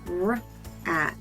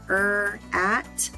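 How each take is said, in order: First: The r sound is said with no added vowel. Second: The r sound is said with an added vowel. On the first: The speaker calls it right. "make sure you're saying the letter R properly" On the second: The speaker calls it wrong. "the letter R does not say er"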